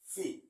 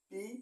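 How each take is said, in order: First: It is said in a British accent. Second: It is said in an Indian accent. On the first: "British উচ্চারণে বলি" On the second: "Indian উচ্চারণে বলি"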